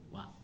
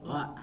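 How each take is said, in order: First: It begins with the lips pushed forward and rounded. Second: It starts abruptly without rounding the lips first. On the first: The speaker calls it right. "Pasti harus gini dulu" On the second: The speaker calls it wrong. "Kalau misalkan tiba-tiba wa susah Bu ya"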